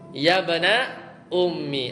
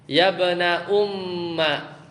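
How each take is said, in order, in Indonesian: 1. Kata terakhir berakhir dengan vokal 'i'. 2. Kata terakhir berakhir dengan vokal 'a'. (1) "huruf mimnya dikasroh" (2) "boleh mimnya itu di fathah"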